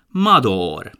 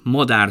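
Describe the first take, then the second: First: The vowels are said in Palóc dialect. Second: The vowels are said in standard Hungarian. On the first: This is the Palóc dialect pronunciation. "palócul ejtve" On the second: This is the standard pronunciation. "köznyelvi madár szavunk"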